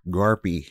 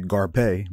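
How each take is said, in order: First: The name ends with an ee vowel. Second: The name ends with a pay sound. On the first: The speaker calls it right. "I'm gonna make use of every letter of my last name. It sounds strong" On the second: The speaker calls it wrong. "but pay? Like, no"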